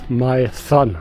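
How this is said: The name is said like English "my son". "some English-speaking people here who pronounce it as my son"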